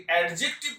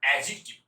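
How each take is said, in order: First: অ্যাডজেক্টিভ with the d sounded, ad-jek-tiv; wrong pronunciation. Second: অ্যাডজেক্টিভ with silent d, a-jik-tiv; correct pronunciation. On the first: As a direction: hit a clear d before the j in অ্যাডজেক্টিভ. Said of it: "বলেছেন তাহলে কিন্তু ভুল". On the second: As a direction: glide from the a straight to j in অ্যাডজেক্টিভ. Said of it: "তাহলে ঠিক উচ্চারণ কি". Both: Shown as a demonstration.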